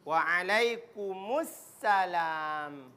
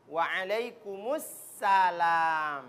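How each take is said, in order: First: Drawn-out wrong waalaikumsalam; salah ucap. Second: Slow, careful waalaikumsalam; correct salam. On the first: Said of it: "Tidak boleh waalaikumsalam". (waalaikumsalam dengan pengucapan salah) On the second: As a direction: Waalaikumsalam drawn out, every sound clear. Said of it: "Jadi perhatikan ini". (ucapan waalaikumsalam yang benar) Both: Shown as a demonstration.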